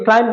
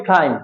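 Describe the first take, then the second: First: "ক্লাইম্ব" with an unaspirated k; wrong option, plain k. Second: "ক্লাইম্ব" with a puffed k, silent b; right option, aspirated k. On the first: Teacher offers students the wrong choice, plain k in "ক্লাইম্ব". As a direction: start "ক্লাইম্ব" on a hard k. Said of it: "বলবো নাকি ক্লাইম্ব". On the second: Teacher offers students the right choice, aspirated k in "ক্লাইম্ব". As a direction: breathe through the k of "ক্লাইম্ব". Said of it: "নাকি ক্লাইম্ব". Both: Shown as a demonstration.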